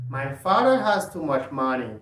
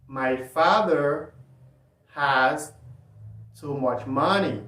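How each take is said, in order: First: It is said at normal speed. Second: It is said slowly.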